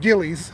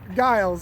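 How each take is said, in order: First: The name is said with two syllables. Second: The name is said with one syllable. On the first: The speaker calls it wrong. "I've been pronouncing that wrong for years. I've been pronouncing it Gillies" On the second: The speaker calls it right. "I think you're right. Giles. I like that"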